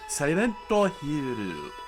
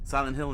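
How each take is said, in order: First: The name is said in a Japanese accent. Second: The name is said in a plain English accent.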